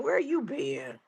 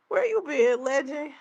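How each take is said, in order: First: Said in the usual way. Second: Excited call-out. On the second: Real, not acted. Greeting a returning chat viewer.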